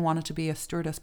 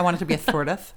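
First: Said in the usual way. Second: "stewardess" lisped as "thtewardeth"; childhood lisp. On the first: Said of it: "I had a lisp". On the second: Retold or imitated. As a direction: imitate a small child turning each s in "stewardess" into th. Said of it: "I had a lisp when I was little".

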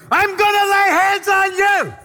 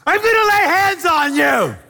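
First: High, loud and slow shout. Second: High, loud shout into her ear. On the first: Preacher shouting in the next lady's ear. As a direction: bellow it over the noise. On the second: Preacher shouting over a church full of tongues. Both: Retold or imitated. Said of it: "now I'm shouting at people".

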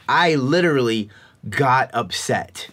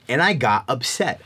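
First: Slowed, leaning on "got upset"; emphatic. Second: Said in the usual way. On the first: Real, not acted. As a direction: stress "literally" and draw out "got upset".

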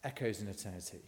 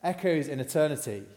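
First: Hushed and low, letting it land; solemn restatement. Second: Lightly acted film-hero line, louder; Maximus rallying troops. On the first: Real, not acted. Preacher applying the line to Jesus' words, solemnly quiet. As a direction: drop soft and low on the closing phrase. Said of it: "Jesus is saying here". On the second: Preacher finishing a Gladiator quote, mock-rousing. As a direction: ring it out like a modest battle cry. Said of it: "these lines to inspire his troops".

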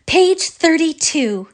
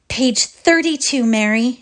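First: "Page thirty-two" said higher and slower; louder, slower repeat. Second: Said in the usual way. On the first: Acted. Teacher tells the pianist the page again, louder. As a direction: repeat "Page thirty-two" to make sure she heard. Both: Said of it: "she said".

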